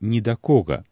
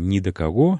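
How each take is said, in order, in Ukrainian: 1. Наголос падає на перший склад, ко. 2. Наголос падає на останній склад, го.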